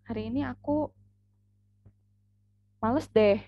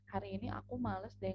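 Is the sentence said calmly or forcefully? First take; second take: forcefully; calmly. First: It is said forcefully, like an exclamation. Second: It is said calmly, without exclamatory force. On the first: "itu kan pasti tanda seru" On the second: "Beda lagi kayak gini"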